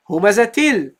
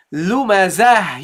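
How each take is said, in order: First: Humazatil with a crisp ta; pronounce the ta. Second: Lumazah said slowly with a final ha; end on a ha. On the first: Teacher repeating the form for students. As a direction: say humazatil, ta sounded. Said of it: "you pronounce it humazatil". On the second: Teacher showing the pause form. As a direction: stop on lumazah, breathing out the ha. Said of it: "So you say". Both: Shown as a demonstration.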